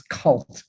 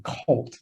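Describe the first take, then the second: First: Cult with a short u, as in "adult"; correct pronunciation. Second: Cult said as if it were "colt"; the word Cult misheard as colt; mistaken pronunciation. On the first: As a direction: say Cult clearly, not like colt. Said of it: "No, it's Cult". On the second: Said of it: "Some people think I'm gonna say". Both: Shown as a demonstration.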